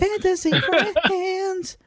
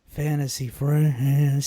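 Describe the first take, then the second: First: It is said in a high voice. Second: It is said in a low voice.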